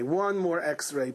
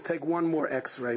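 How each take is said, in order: First: "One" stressed, very slow; slower insistent repeat. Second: Slow, deliberate request; slow pleading. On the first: Patient repeating his plea to the doctors, very slow insistent. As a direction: lean hard on "One". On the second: Patient begging the doctors, slow earnest plea. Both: Acted.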